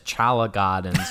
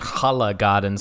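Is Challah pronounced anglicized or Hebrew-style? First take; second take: anglicized; Hebrew-style. First: Challah is given an anglicized local pronunciation. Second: Challah is given a Hebrew-style pronunciation. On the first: It reads the name the way locals say it. The speaker calls it right. "but I assume it's" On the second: The speaker calls it wrong.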